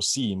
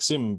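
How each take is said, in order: First: The vowel in the name is long. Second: The vowel in the name is short. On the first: This is the Estonian way of saying it. The speaker calls it right. "Estonian version is like more seam, more like longer" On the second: This is how Americans usually say it. The speaker calls it wrong. "most people from the states would say like sim"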